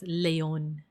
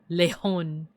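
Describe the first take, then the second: First: The J is said like a Y sound. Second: The J is said like an H sound. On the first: "European like pronunciation of like the J"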